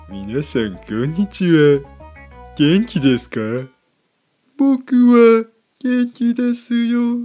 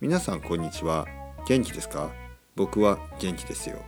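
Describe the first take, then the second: First: It is said in an odd, playful voice. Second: It is said in a plain, ordinary voice. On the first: "ポッドキャストは同じことを言っても少し面白い話し方とかね" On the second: "例えばブログだと"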